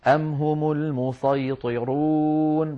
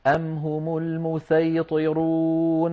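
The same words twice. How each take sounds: First: Slow chanted recitation, المسيطرون with a heavy emphatic s; sad in المسيطرون. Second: Slow chanted recitation, المسيطرون with a light, plain s; sin in المسيطرون. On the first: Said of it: "بالصاد عادي". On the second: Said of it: "بالسين". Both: Shown as a demonstration.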